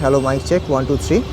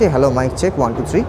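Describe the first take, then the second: First: The voice has heavy traffic noise behind it. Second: The voice has only light background noise. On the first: "প্রচুর গাড়ি ঘোড়ার noise বাইরে" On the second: "টানেলের ভেতরে noise cancellation অফ"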